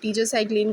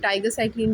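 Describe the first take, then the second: First: The first syllable sounds like 'tee'. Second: The first syllable sounds like 'tie'. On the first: "मैं इसको टीट्रासाइक्लिन कह के pronounce करूँगी" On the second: "कुछ उसे टाइगर साइक्लिन बोलते हैं"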